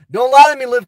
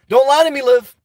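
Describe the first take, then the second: First: "lie" hit louder, repeated more forcefully; louder warning. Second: Said in the usual way. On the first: Acted. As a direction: lean in harder on "lie".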